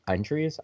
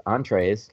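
First: "entries" said like entries instead of entrees; misreading "entrees". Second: "entrees" said properly as on-trays; corrected "entrees". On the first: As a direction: say "entries" as the word entries, reading it wrong. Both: Real, not acted. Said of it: "Let's try that again".

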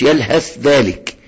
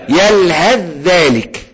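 First: يلهث ذلك with a whispery ث before the ذ; unmerged ث. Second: Slow يلهث ذلك, ث turned into a long doubled ذ; merged into ذال. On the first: Teacher shows students what to avoid, unmerged ث. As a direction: sound the ث separately in يلهث ذلك. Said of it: "ما تقولش يلهث ذلك". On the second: Teacher models for students to repeat, merged ذال. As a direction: glide straight onto a held ذ in يلهث ذلك. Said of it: "يلهث على طول على الذال". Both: Shown as a demonstration.

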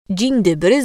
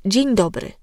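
First: DZIEŃ DOBRY with the e of dzień shortened to i; tag regional reduced vowel. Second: Said in the usual way. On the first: Shown as a demonstration. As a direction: say "Dzień dobry" as "dziń", e squeezed to i. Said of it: "skracanie e do i". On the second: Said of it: "zamiast dzień dobry".

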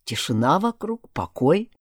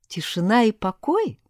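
First: Said in the usual way. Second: Mocking echo. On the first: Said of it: "сказал Златовласка". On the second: A narrator's reading. Heroine mocking a friend's reassurance, sceptical echo. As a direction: throw the words back, sceptical.

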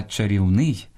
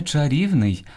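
First: Чарівний stressed on final НИЙ; end-stressed чарівний; stress on last syllable. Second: Чарівний stressed on РІВ; wrong middle stress. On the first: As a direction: say ча-рів-НИЙ. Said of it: "Слід казати". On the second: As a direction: say ча-РІВ-ний, higher. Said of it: "найчастіше неправильно наголошуєте". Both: Shown as a demonstration.

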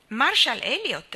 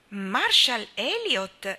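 First: Said in the usual way. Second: Nome ripetuto con stupore, allungato; esclamazione stupita. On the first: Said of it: "rispose il capitano". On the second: A narrator's reading. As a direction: exclaim it slowly and loudly, in disbelief. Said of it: "esclamò Anna". (esclama incredula, allungando il nome)

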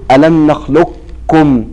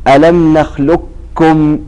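First: "ألم نخلقكم" slow, with the qaf's heaviness kept before the kaf; incomplete assimilation. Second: "ألم نخلقكم" slow, read as a pure doubled kaf, no qaf at all; full assimilation. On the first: Teacher demonstrating the incomplete assimilation reading. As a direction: recite "نخلقكم" keeping a trace of qaf. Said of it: "إدغاما ناقصا تقول". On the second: Teacher demonstrating the full assimilation reading. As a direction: recite "نخلقكم" as nakhlukkum. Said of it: "الإدغام الكامل ... فتقول". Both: Shown as a demonstration.

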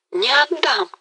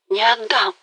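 First: Much higher, fervent cry; the climax of her vow; passionate peak. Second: Higher, rising insistence; heated refusal. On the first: Galina vows to keep Mazepa, at full passion. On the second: Galina insists to Mazepa, growing heated. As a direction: refuse to give him up. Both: A narrator's reading. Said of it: "всё горячее и горячее".

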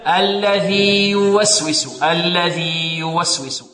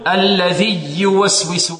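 First: Slow الذي يوسوس, long ii kept apart from the next ي; clear izhar. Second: الذي يوسوس run together on a doubled ي; faulty demo, alladhiy-yuwaswisu; wrong idgham. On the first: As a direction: hold الذي's long ii, then start يوسوس cleanly. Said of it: "كيف نظهر؟". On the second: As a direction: merge the end of الذي into يوسوس with a pressed y. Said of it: "يدغم هنا فيقول". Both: Shown as a demonstration.

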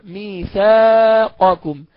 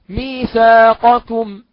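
First: Very slow ميثاقكم with qaf kept; no assimilation. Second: Slow, louder ميثاقكم; example word. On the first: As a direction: keep the ق of ميثاقكم audible. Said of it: "ده في ألف، والألف ساكنة". (بدون إدغام) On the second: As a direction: draw out ميثاقكم. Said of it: "كلمة". (نطق المثال ببطء) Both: Shown as a demonstration.

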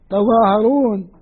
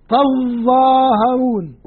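First: تظاهرون with a single light ظ, slowly; teacher gives Asim's reading تظاهرون with the ظ unstressed; light ظ, no doubling. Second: تظاهرون with a long, doubled ظ, drawn out very slowly. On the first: Teacher reads Asim's version slowly, light ظ. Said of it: "يا عاصم اللي قرأتها". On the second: Teacher shows Nafi's reading, doubled ظ drawn out. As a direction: hold the ظ in تظاهرون, geminated and heavy. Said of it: "قرأوها هكذا". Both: Shown as a demonstration.

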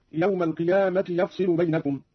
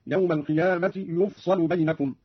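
First: Said in the usual way. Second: يفصل said "yufsalu", slowly; damma, then fatha. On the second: Shown as a demonstration. Teacher demonstrating Qalun's passive reading, يفصل as "yufsalu". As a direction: give يفصل u on y and a on s. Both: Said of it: "قرأ قالون بضم الياء وإسكان الفاء وفتح الصاد".

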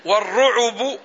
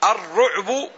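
First: والرعب said war-ru'ubu, u after the ayn; والرعب with an extra beat, ru-'u-bu; damma on the ayn. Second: الرعب said ar-ru'bu, no vowel after the ayn; الرعب as two-beat ru'-bu after the article; sukun on the ayn. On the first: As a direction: put a short u on the ayn in والرعب. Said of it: "بضم العين". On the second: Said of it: "بإسكان العين". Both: Shown as a demonstration.

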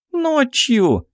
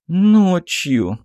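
First: Put-on very high girlish shriek without much volume; young archer's squeal. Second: Put-on high, submissive girl's voice; meek repetition. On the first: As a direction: squeal the answer eagerly. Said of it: "взвизгнула молоденькая лучница". (высокий девичий визг) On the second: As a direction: repeat it obediently, browbeaten. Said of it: "покорно повторила в конец затурканная Магесса". (покорный высокий девичий голос) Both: A narrator's reading.

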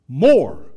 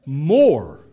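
First: A loud, punched single word; emphatic more. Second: Loud, punched More, repeated for weight; emphatic more again. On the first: Pastor answering parents, booming the word More. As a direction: hit it hard like the final answer. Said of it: "Here's the answer to that question". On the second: Pastor repeating the answer to parents, loud and punched. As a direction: drive the word home once more. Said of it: "That's how often you need to say it". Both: Real, not acted.

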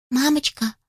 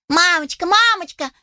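First: Tender little chick. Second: High excited calling out; shouting chicks. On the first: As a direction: ask gently like a loving child. Youngest gently asks mother. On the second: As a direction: call out eagerly like chicks. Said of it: "закричали малыши в один голос". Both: Acted.

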